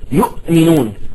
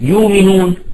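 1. تُسمع همزة بعد المقطع الأول. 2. تُبدَّل الهمزة بمدّ طويل. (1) "حتى تشعر ان الهمزة صعبة" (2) "بالإبدال فتصبح يؤمنون"

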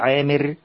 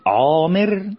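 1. حرف العين مرقق وخفيف. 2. حرف العين مفخم وتقيل. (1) "بنقول عامر بترقيق العين" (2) "هل احنا ينفع نقول عامر"

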